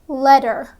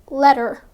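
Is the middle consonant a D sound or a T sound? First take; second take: D sound; D sound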